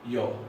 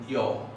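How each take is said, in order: No difference in how they are said.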